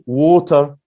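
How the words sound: It is said in a careful dictionary pronunciation. "the exact as the dictionary water"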